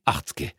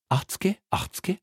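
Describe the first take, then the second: First: "achtzge" dropped low with falling tune; haggling, settling. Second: "Achtzge, achtzge" swooping up very high; haggling, rising. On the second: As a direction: sing "Achtzge, achtzge" upward like a haggler. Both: Acted. Haggling over price.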